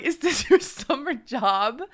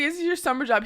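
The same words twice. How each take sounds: First: Mocking question broken by a laugh; laughing through it. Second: Said in the usual way. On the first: Real, not acted. To the young guard, laughing mid-question. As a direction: laugh while asking. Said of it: "burst out laughing". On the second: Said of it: "I was like".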